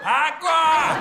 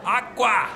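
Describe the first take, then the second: First: Agua much higher and louder in Spanish; emphatic Spanish agua. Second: Agua in a higher, louder Spanish voice. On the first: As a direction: really sing out agua the Spanish way. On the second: Comedian teaching the kid the Spanish word agua. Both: Shown as a demonstration. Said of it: "Water, agua".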